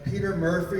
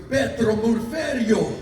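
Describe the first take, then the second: First: It is said in a plain accent. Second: It is said in an Italian accent.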